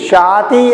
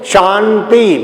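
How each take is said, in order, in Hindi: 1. पहले अक्षर में कोई अनुनासिक ध्वनि नहीं है। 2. पहला अक्षर नाक से बोला जाता है। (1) "शाति नहीं" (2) "ना का pronunciation as with with help of the nose"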